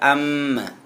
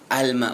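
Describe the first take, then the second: First: The l merges into a doubled m. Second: The l sound is heard clearly before m. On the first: The speaker calls it wrong. "bukan amma" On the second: The speaker calls it right. "bacanya jelas al bunyinya"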